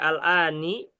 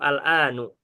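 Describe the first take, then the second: First: The word ends with an i vowel. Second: The word ends with a u vowel. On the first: "Nggak mungkin dibaca" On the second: "Nggak mungkin dibaca"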